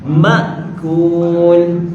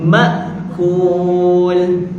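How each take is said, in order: The two takes are said the same way.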